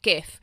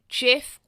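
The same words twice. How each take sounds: First: The word begins with a hard G sound. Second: The word begins with a soft J sound. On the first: "or a G" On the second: "with a J"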